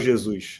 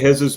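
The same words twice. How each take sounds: First: The name is pronounced the Portuguese way. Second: The name is pronounced the Spanish way. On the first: This is the name's real pronunciation. The speaker calls it right. "in Portuguese, it's Gabriel Jesus" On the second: This comes from mixing in a Spanish pronunciation. The speaker calls it wrong. "I kind of mix up to Spanish"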